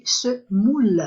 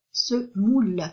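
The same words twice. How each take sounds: First: Semoule stretched slowly, the ou held clearly; slow sounding out semoule. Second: Said in the usual way. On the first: Shown as a demonstration. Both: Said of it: "O plus U, ça forme le son ou".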